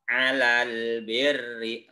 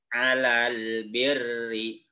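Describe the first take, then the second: Both takes have the same delivery.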